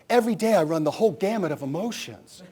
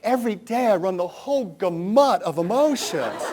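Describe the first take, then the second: First: Gamut is pronounced the standard way. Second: Gamut is pronounced in a misread way. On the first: The speaker calls it right. "what I meant to say was" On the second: The speaker calls it wrong. "Out of my mouth with, with full drama was"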